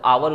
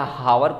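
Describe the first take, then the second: First: The word begins directly with a vowel. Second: The word begins with an h sound. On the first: The speaker calls it right. "एच silent होता है" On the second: The speaker calls it wrong. "या हावर कहेंगे जो"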